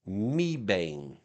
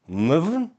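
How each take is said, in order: First: The name has clear, full vowels. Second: The name is short, reduced and mushy. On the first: This is how the navigation voice said it. The speaker calls it wrong. "lady lady G P S voice ... called this Meebane" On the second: This is how local people say it. The speaker calls it right. "people will say Mvn ... almost like muffin, but with vvs and mushy mouthy"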